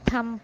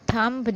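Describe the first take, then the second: First: No b sound is heard at the end. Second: A b sound is heard at the end. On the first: The speaker calls it right. "इसको हम थम पढ़ते हैं" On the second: The speaker calls it wrong. "थंब नहीं"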